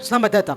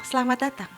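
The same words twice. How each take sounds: First: It is said in a scary voice. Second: It is said in a friendly voice.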